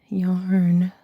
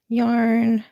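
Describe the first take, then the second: First: Breathy whispered yarn. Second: Said in the usual way. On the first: Pretend. Showing off her yarn stash to viewers, whispered. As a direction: drop to a secret whisper on yarn. Playful run of repeated yarn. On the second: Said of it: "playful run of repeated yarn".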